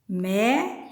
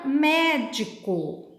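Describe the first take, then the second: First: MÉ, DI, CO with long pauses; syllable by syllable. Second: Said in the usual way. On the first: Shown as a demonstration. Teacher separates the word for fourth graders, syllable by syllable. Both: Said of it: "se eu separo médico".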